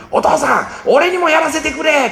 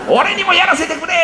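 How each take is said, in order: First: Put-on high, eager child's plea; begging kid. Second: Put-on high child's plea through a laugh. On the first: Son begs father to let him fish. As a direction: plead like a boy who can't wait. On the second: Father laughingly repeats son's plea. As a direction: repeat the kid's begging, amused.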